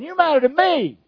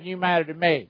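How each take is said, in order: First: It is said with strong, deliberate emphasis. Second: It is said flatly, without strong emphasis. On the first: The speaker calls it right. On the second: The speaker calls it wrong. "Not you matter to God, you matter to me. No"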